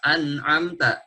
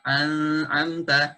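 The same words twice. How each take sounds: First: "an'amta" with the nun said clearly before the ain; clear izhar. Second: Slow "an'amta" with the nun blurred and nasal; wrong blurred nun. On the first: Teacher showing the correct clear nun to students. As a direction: pronounce the n in "an'amta" distinctly. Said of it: "dibaca jelas". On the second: Teacher demonstrating the wrong blurred reading to students. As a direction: smear the n of "an'amta" into the ain. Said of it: "tidak dibaca samar". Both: Shown as a demonstration.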